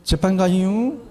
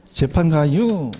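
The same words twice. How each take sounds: First: Chungcheong accent. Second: Slow Chungcheong drawl on 가유; Chungcheong accent. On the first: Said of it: "다시 한번". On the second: Teacher drilling students in Chungcheong dialect, slow drawl. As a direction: drag out 재판 가유 the Chungcheong way. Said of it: "뭘 가자고?". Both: Shown as a demonstration.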